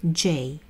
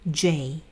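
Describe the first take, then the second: The two takes are said the same way.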